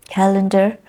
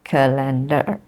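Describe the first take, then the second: First: "Calendar" as CAL-en-dar; stress first syllable. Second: "calendar" as ca-LEN-dar; stress second syllable. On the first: Teacher contrasts right with wrong, stress first syllable. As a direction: punch CAL at the front of "Calendar". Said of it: "not calendar". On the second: Teacher shows the form to avoid, stress second syllable. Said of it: "stress happens on the second syllable". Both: Shown as a demonstration.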